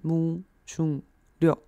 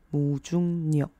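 First: Each syllable is said apart, last starting with L. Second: The syllables run together, last starting with N. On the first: "那分开的话是" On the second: "合起来的话会有一点小小的变音"

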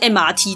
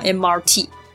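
First: It is said with a Taiwanese accent. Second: It is said in standard English.

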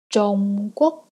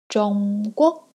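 Both takes have the same delivery.

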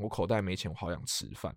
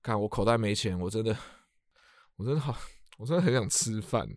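First: It is said flatly, without emotion. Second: It is said sadly, with strong emotion.

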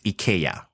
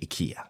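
First: The name is pronounced the Swedish way. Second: The name is pronounced the common English way. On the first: This is how the founder says the name. "the correct pronunciation from the founder is IKEA" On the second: This is how most people say the name. "We all say IKEA"

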